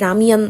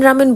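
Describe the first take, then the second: First: The word is said as ra-myeon. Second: The word is said as ra-men. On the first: The speaker calls it right. "এটাকে প্রোনাউন্স করা হয় রামিয়ান বলে" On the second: The speaker calls it wrong. "আমি এটাকে রামেন রামেন বলতেছি"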